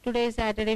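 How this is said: It is said in a flat, uninteresting monotone. It is just a plain statement. "it's so uninteresting"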